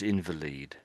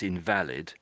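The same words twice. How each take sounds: First: The stress is on the first syllable. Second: The stress is on the second syllable. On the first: "But if it's a person, it's invalid" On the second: Something is not valid, like a ticket. "that's the right pronunciation. That's invalid"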